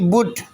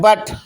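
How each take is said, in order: First: The vowel sounds like 'oo', following the spelling. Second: The vowel sounds like 'uh', not the spelling. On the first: This is how the word is written. "लिखते B यू T" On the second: This is how the word is actually read. "पढ़ते हैं"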